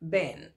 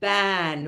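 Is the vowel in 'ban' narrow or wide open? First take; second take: narrow; wide open. First: The vowel is narrow, with the mouth less open. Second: The vowel is wide, with the mouth opened wide. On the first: The speaker calls it wrong. "जब लोग इसका उच्चारण करते हैं, specially अपने state में राजस्थान में" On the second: The speaker calls it right. "मुंह फाड़ के"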